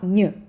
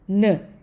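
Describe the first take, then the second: First: The N is soft and palatalized, like Russian. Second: The N is plain and hard, not palatalized. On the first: The speaker calls it wrong. "not n, mm-mm" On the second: The speaker calls it right. "try to say it like the hard N"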